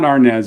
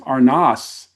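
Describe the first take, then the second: First: The name is said in its Americanized way. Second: The name is said in its original, un-Americanized way. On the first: This is the form adapted for American audiences. The speaker calls it wrong. "It's not Arnaz. It was kind of Americanized" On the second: This is how the family itself said the name. The speaker calls it right. "the real pronunciation of his last name"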